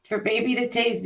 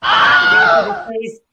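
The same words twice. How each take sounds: First: Said in the usual way. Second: High, loud shouted announcement. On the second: Acted. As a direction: belt it out like a show host. Announcing a gift loudly.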